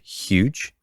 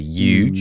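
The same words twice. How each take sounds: First: It starts with a plain h sound. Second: It starts with a y sound, Western PA style.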